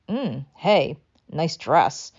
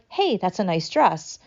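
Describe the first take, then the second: First: It sounds snide and sarcastic. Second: It sounds warm and sincere.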